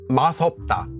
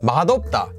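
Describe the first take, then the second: First: The middle consonant links as an s sound. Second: The middle consonant links as a d sound. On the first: The speaker calls it wrong. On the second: The speaker calls it right. "is actually pronounced as"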